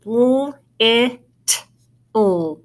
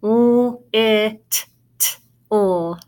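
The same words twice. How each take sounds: First: "l, it, l" as separate sounds, single t; one T sound. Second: "l, it, l" with the t sounded twice; doubled T sound. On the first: Teacher showing double consonants make one sound, sounding out. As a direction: hold "l", say "it" with one crisp t, then "l". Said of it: "it just makes one sound". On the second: Teacher showing what you would not say, sounding out. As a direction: split "l, it, l" apart, adding a second separate t. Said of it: "You would not say". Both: Shown as a demonstration.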